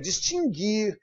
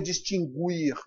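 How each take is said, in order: First: The u after the g is silent. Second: The u after the g is sounded. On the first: The speaker calls it right. "É distinguir" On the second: The speaker calls it wrong. "Eu não posso ler distinguir, não é isso"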